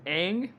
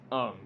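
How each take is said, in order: First: Said in the usual way. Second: "Ung" with an open back vowel, no long A; film's mispronunciation. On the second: Shown as a demonstration. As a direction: say Aang as "Ung". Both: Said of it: "his name is pronounced".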